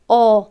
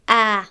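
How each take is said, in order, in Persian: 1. مصوت بلند a پر و سنگین است. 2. مصوت بلند a خالی و سبک است. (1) "پر خواندن الف چیست؟" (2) "و خالی خواندن"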